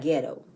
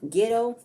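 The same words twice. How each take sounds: First: The first vowel sounds like 'get'. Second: The first vowel sounds like 'git'. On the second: "like G I T T O"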